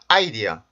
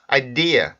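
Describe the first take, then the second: First: The stress is on the first syllable. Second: The stress is on the second syllable. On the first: The speaker calls it wrong. "첫 번째 음절에 대부분 강세를 주려는 경우들이 있어요" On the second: The speaker calls it right. "이 단어의 강세는 두 번째"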